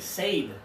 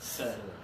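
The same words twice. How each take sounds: First: The word does not rhyme with dead. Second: The word rhymes with dead. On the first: The speaker calls it wrong. "They make mistakes with this because they say said" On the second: The speaker calls it right. "It rhymes with dead"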